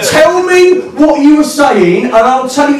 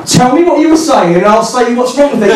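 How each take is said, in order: First: Slow, high-pitched emphatic challenge; insistent demand. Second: Higher-pitched challenge at normal pace; argumentative demand. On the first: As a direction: hammer out each word, mock-exasperated. Argument loops, demand repeated more slowly. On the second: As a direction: press him for an answer. Mock argument, first round. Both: Retold or imitated.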